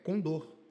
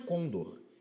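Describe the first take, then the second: First: The stress is on the last syllable. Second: The stress is on the first syllable. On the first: The speaker calls it right. "É oxítono" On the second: The speaker calls it wrong. "Aqui não é côndor"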